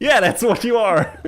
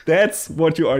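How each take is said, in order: First: High laughing put-down; mock-cheerful laughing jab; laughing tease. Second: Said in the usual way. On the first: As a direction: tease him through laughter. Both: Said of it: "It's like".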